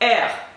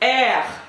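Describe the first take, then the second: First: The R is made plainly, without extra force. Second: The R is made with strong extra force.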